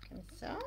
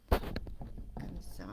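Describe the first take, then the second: First: Said in the usual way. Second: Breathy whisper while fiddling with the camera; soft whisper while adjusting the camera; whispered aside. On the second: Real, not acted. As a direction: whisper it to yourself, half under the breath. Adjusting the camera, muttering to herself.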